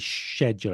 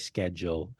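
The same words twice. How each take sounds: First: It is said with the British pronunciation. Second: It is said with the American pronunciation. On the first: This is how the speaker says it. "I write the British way. Beginning, I say schedule" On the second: This is how the speaker does not say it. "I don't say schedule"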